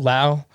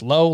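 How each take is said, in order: First: The name rhymes with 'now'. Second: The name rhymes with 'go'. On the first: "I guess everyone pronounces it differently" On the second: "I guess everyone pronounces it differently"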